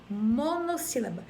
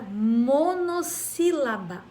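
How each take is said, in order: First: Said in the usual way. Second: "monossílaba" drawn out as mono, sílaba; syllable emphasis. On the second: Shown as a demonstration. Teacher introducing a term, "monossílaba" said part by part. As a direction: stretch and stress each part of "monossílaba". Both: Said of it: "Então, uma sílaba".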